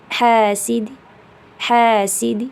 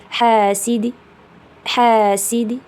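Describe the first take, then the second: Both takes have the same delivery.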